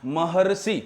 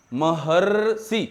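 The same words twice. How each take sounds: First: Said in the usual way. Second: महर्षि drawn out very slowly, leaning on the अर sound; slow drawn-out demo. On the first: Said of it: "अर की ध्वनि आती है". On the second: Shown as a demonstration. Teacher showing students the अर sound: slow drawn-out महर्षि. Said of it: "जैसे बोलो तो".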